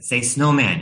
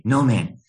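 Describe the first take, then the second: First: Said in the usual way. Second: "No man" for snowman, without the first S; toddler's "No man", missing its opening S; dropped S. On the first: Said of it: "trying to teach her to pronounce". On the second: Retold or imitated. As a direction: repeat "No man", leaving the S off snowman. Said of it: "she would leave off the S".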